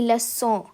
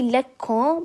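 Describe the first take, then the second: First: The c is sounded as an s. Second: The c is sounded as a hard k. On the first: The speaker calls it right. "that C will sound like an S" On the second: The speaker calls it wrong. "it won't be lekon"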